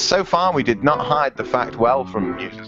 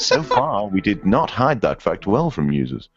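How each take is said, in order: First: It is read in his ordinary voice. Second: It is read in a put-on jazz voice.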